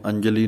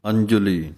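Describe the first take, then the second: First: ਅੰਜਲੀ without the aunkar on the j; the mistaken ਅੰਜਲੀ with a plain j-a; ਅੰਜਲੀ without the u sound; wrong way. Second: ਅੰਜੁਲੀ with a clear u after the j; ਅੰਜੁਲੀ with the aunkar clearly heard. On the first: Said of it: "ਇਹਨੂੰ ਅੰਜਲੀ ਨਹੀਂ ਕਹਿ ਦੇਣਾ". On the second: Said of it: "ਔਂਕੜ ਦੀ ਆਵਾਜ਼ ਦੇਣੀ ਹੈ". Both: Shown as a demonstration.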